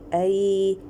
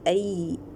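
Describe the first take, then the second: First: The ya sound is soft and loosely released. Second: The ya sound is pressed tightly at the tongue. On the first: The speaker calls it right. "it is called as the ya lean. Ya lean is the lean means the softening" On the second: The speaker calls it wrong. "don't press the ya makhraj. ... no"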